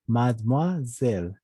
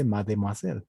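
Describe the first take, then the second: First: Mademoiselle slowly as "mad-mua-zel"; silent middle E. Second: Mademoiselle as "ma-de-mua-sel"; sounded middle E. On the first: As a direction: say mademoiselle in slow parts, no E after D. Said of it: "la E se vuelve muda". (mademoiselle lento, con la E muda) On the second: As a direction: say mademoiselle wrongly, with the middle E voiced. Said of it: "No se dice mademoiselle". (mademoiselle pronunciando la E de en medio) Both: Shown as a demonstration.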